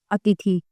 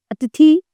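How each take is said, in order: First: Said in the usual way. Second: अतिथि read out higher and louder, rising, as the wrong one; अतिथि said high and loud as the mistake; incorrect form. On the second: Shown as a demonstration. Teacher calling out the wrong form to the class, louder. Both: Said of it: "अब आप देखिए यहाँ पे".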